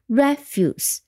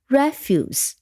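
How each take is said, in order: First: The stress is on the first syllable. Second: The stress is on the first syllable.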